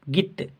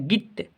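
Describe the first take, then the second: First: The vowel is short and clipped. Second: The same.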